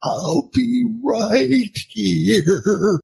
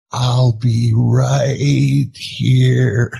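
First: High, very slow mock-weepy goodbye; hammed-up teary drawl, pitched high; tearful movie farewell. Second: Very slow, drawn-out mock farewell; louder, hammed-up sentimental drawl; teasing movie impression. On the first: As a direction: imitate a tearful goodbye, stretching every word. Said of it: "his eyes are filling with tears". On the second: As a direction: stretch each word like a movie creature's goodbye. Redoes the tearful line at wife.

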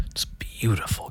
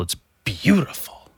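First: "beautiful" whispered, soft and slow. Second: Said in the usual way. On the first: Real, not acted. Repeating "beautiful" to listeners in a whisper. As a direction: hush the word "beautiful".

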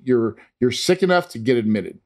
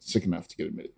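First: Said in the usual way. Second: Much softer, lower echo of the doctor's words; soft low repeat for emphasis; quiet repeat. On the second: Retold or imitated. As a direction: say it again under your breath. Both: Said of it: "basically is what he said".

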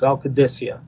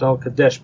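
First: "Al Qadisiyah" in full, ending "-ee-ah"; corrected pronunciation. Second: "Al Qadesh" cut short, ending on "desh"; common mispronunciation. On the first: Correcting the common name of the rifle, full "Al Qadisiyah". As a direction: sound out every syllable of "Al Qadisiyah". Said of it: "but it's Al Qadisiyah". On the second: Rifle enthusiast quoting what many people call it, common short form "Al Qadesh". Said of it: "a lot of people call it". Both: Shown as a demonstration.

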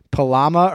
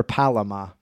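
First: "Palama" said pa-LA-ma, middle syllable stressed; stress on second syllable. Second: "Palama" said PAL-a-mah, first syllable stressed; stress off middle syllable. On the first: Host unsure of a word's emphasis, "Palama" stressed on middle syllable. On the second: Host offers other emphasis, "Palama" stressed on first syllable. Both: Shown as a demonstration. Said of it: "don't know what the emphasis is on this word".

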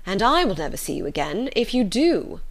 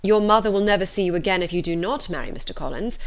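First: "I" lifted, "do" landed at the end; stress on I and DO. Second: Measured ultimatum leaning on "not"; firm weight on "not"; stress on NOT. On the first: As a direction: set "I" and "do" against the first threat. Father's reversed ultimatum. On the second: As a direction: hit "not" as the first alternative. Father sets up contrasting ultimatums. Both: A narrator's reading.

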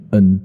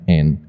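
First: N said the common mistaken way; mock wrong N; wrong letter N. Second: N said cleanly as en; teacher demo of English N; correct letter N. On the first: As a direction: show the wrong N many people say. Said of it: "很多人会念N". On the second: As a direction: model the right N. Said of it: "它是念N". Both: Shown as a demonstration.

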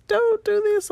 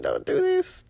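First: High, louder, half-joking cry of "don't do this"; louder mock plea. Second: Mock pleading. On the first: Mom pleads with her son as guilt hits, louder and higher. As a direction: beg him a bit more desperately, half in jest. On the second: Son triggers mom guilt.

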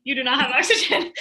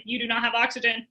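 First: Laughing. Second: Said in the usual way. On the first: Retold or imitated. Retelling brain's panic, repeated laughing.

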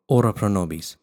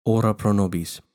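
The two takes are said the same way.

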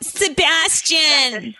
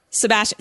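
First: Put-on slow high Valley girl drawl. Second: Said in the usual way. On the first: Shown as a demonstration. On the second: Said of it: "What was the other one?".

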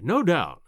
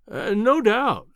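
First: A light, quicker humoring agreement; just nod it along to placate him. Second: Slow, drawn-out, humoring an imbecile. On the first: Narrator repeating agreement to the professor, lightly humoring. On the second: Narrator humoring the boastful professor, slow and indulgent. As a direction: stretch it out as if placating a fool. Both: A narrator's reading. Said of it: "as one humors an imbecile".

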